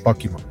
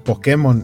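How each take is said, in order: First: The word is said with an English-style pronunciation. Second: The word is said Spanish-style, following its accent mark. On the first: "la idea de la pronunciación en inglés" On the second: "por la tilde que tiene la palabra, tiene sentido que en España hayan adoptado"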